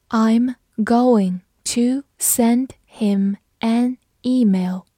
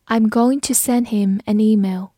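First: Very slow, word by word; slow read-through. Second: Said in the usual way. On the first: Shown as a demonstration. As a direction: pause after every word as a teacher demonstrating. Teacher's slow read, then normal. (慢速逐词朗读)

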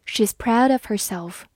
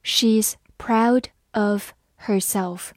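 First: Said in the usual way. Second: Slowly, a gap after each word; slow reading. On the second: Shown as a demonstration. Teacher giving learners a slow read-through, word by word. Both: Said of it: "好，慢读一遍".

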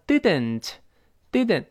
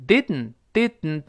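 First: "didn't" with a clear vowel before N; careful, unreduced "didn't"; full "den" in "didn't". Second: "didn't" with tongue stuck, air through the nose; no vowel before N in "didn't"; nasal-plosion "didn't". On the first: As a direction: slowly release both syllables of "didn't". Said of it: "那个出现den了". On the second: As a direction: hold the D, hum out N in "didn't". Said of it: "鼻子出气儿". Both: Shown as a demonstration.

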